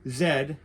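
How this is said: It is said the Australian way, as 'zed'.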